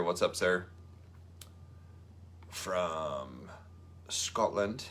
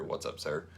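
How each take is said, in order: First: A mock Scottish accent, lightly done; bad Scottish accent. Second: Said in the usual way. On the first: Greeting Andrew Murray from Scotland in a bad Scottish accent. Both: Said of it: "that's a terrible accent".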